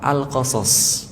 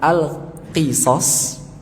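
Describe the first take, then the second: First: The first vowel after q is a. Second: The first vowel after q is i. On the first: "pakai fathah" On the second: "pakai qi kasroh"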